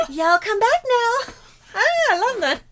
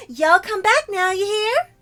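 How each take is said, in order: First: Giggling through the line; laughing. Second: High, loud cutesy Southern sign-off; chirpy country gal farewell; southern uwu voice. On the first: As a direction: repeat it while cracking up. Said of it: "I didn't know how much I wanted to say that". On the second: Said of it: "the southern accent uwu voice". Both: Acted.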